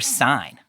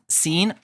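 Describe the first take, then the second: First: The vowel is a diphthong, as in sign. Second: The vowel is long, as in mean. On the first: "or sign, like Sinai?"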